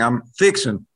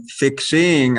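First: "fixing" said as fix-in; casual "fixing" ending in a plain n; dropped G. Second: "fixing" with a clearly sounded ING; careful, drawn-out "fixing" with nothing dropped; full ING ending. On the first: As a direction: drop the g on "fixing", Southern style. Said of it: "you basically just start dropping". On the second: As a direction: slowly say "fixing" as fix-SING, ending on a full ng. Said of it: "the I N G on the word". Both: Shown as a demonstration.

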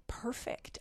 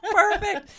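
First: Breathy whisper of delight. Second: High, loud laughing praise. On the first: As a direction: whisper it in awe of the pie. Savoring pie while praising. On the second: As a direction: still laughing, cheer it out. Laughing at chewing guest. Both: Real, not acted.

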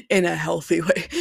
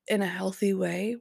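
First: "In a healthy way" repeated louder in mock disbelief; incredulous echo of "In a healthy way" with a laugh. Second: Said in the usual way. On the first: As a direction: scoff at the phrase "In a healthy way". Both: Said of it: "which I thought was hilarious".

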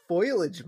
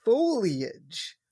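First: "foliage" quoted wrongly as FOY-lij; mispronounced foliage. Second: "foliage" said carefully as FOH-lee-ij; corrected foliage. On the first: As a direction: say "foliage" like foil plus -ij. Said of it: "It's not foliage, Mom". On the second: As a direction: sound all three syllables of "foliage", long OH first. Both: Retold or imitated.

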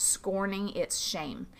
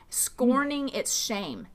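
First: Said in the usual way. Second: Scorning drawn out slowly and lifted higher; stress on Scorning. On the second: Shown as a demonstration. Pastor repeating the scripture phrase to her listeners, slow and emphatic. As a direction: lean into Scorning, then let shame hang. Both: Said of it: "Scorning its shame, meaning he refused".

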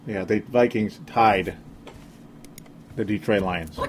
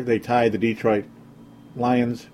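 First: Slow, quieter, each word dropped flat; slow deadpan disbelief. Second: Said in the usual way. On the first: Shown as a demonstration. Podcaster to fans, repeating the tie in slow disbelief. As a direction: let "tied the Detroit Lions" sink in slowly. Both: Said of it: "I like to say Detroit again".

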